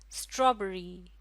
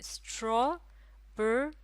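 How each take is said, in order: First: Said in the usual way. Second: "strawberry" very slow, in three pieces straw, बे, री; syllable by syllable. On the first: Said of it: "कितने syllable में तोड़ा जा सकता है". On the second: Shown as a demonstration. Teacher dividing the word into three syllables, syllable by syllable. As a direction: split "strawberry" into three beats with pauses. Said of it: "तीन syllable में".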